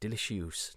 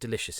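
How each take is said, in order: First: The word has a deliberately odd, altered pronunciation. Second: The word has its usual, standard pronunciation. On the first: "We say delicious" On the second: "we don't say delicious in our house anymore"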